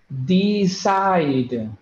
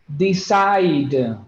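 The two takes are said the same way.

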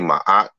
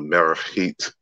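First: Said as one syllable without an R sound. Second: Said with M, R, a K-like sound and T. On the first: This is the usual modern way of saying the name. The speaker calls it wrong. "we say Maat, but it was not pronounced that way" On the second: This is how the name was originally said. The speaker calls it right. "So it's really like Merchit"

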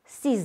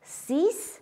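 First: The final consonant is pronounced as z. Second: The final consonant is pronounced as s. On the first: A word starting with a vowel follows. "devant une voyelle et H muet se prononce Z" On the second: The number stands alone. "Le X de 6 et 10 se prononce S"

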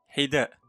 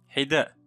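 Both takes have the same delivery.

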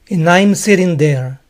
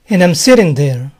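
First: "I'm" is said fully with its diphthong. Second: "I'm" is reduced to a short "am" sound. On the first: "¿Y acaso pueden pronunciar I'm en este comentario?" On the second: "Aquí él pronuncia am"

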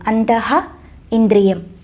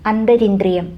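First: It is split in two with an h sound. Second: It is said as one word with an r sound. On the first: "അതിൻ്റെ സാന്നിധ്യം കാണിക്കണമെങ്കിൽ ആ പദം പിരിക്കണം" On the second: "അന്തരിന്ദ്രിയം എന്നൊരു വാക്കാണ് ഉപയോഗിച്ചിരിക്കുന്നത്"

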